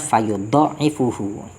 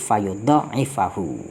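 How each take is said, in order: First: The ain is doubled and it ends in -uhu. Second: The ain is doubled and it ends in -ahu. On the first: "bitasdidi war raf'i ... tanpa adanya alif" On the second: "dengan tambahan tasdid ... dibaca nasab"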